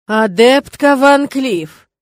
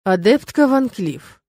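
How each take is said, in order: First: Very slow, loud stern warning. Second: Slow, measured through gritted teeth. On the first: Rector cornering the student against the wall, slow loud warning. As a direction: draw the name out as a warning. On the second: Rector holding back anger at the student, slow gritted address. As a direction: grind the name out slowly. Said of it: "наконец процедил дракон". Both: Acted.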